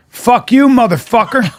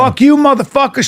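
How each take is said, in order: First: Mock Alabama heckler yelling at a comic. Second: Comic imitating an Alabama heckler's insult. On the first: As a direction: spit it at him like a tough Alabama woman. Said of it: "And a woman goes". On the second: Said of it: "Like this, this real Alabama girl".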